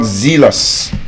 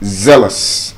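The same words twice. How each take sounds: First: The first vowel is long. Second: The first vowel is short. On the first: The speaker calls it wrong. "It's not zealous" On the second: The speaker calls it right. "They have the short S sound in them"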